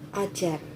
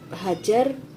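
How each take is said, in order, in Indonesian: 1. Kata ini diawali tanpa bunyi h. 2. Kata ini diawali dengan bunyi h.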